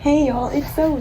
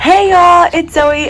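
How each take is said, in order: First: It is said in her normal speaking voice. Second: It is said in her YouTuber intro voice.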